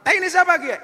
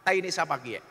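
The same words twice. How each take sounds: First: Sudden high, loud angry yell; enraged. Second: Said in the usual way. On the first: Acted. Ngapak man confronting a Sundanese over the mess, enraged yell. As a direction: burst out in acted outrage. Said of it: "Maka orang ngapaknya ngamuk". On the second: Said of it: "orang ngapak tanya".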